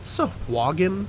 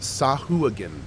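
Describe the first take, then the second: First: The middle of the name has a w sound. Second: The middle of the name has no w sound. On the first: "Is that like a W A sound?" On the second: "Or is it Sahuagin?"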